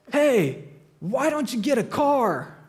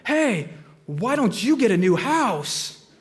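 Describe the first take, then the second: First: Raised, drawn-out heckle from a porch; mock yell. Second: Slow, stretched mock scream, Farley style; Chris Farley scream. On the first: Porch drinker heckling joggers, mock yell. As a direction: toss a jeering shout at passing runners. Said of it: "one of them yells". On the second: [name] yelling back at hecklers mid-run, hammed-up Farley scream. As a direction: bellow it back over your shoulder like Chris Farley. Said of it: "scream like Chris Farley as loud as he could".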